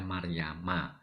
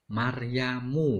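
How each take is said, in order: First: The name ends with an 'a' vowel. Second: The name ends with an 'u' vowel. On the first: The speaker calls it right. "jadi dibaca Maryama" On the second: The speaker calls it wrong. "mu ini juga salah"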